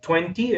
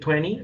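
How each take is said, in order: First: It is said with a British accent. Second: It is said with an American accent. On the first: "lo utilizan en el británico" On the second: "lo utilizan en el americano"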